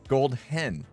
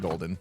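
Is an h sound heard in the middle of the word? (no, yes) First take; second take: yes; no. First: An h sound is heard before the second syllable. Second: No h sound is heard before the second syllable. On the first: "Do we need to emphasize the H?" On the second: "I always just pronounce it like golden"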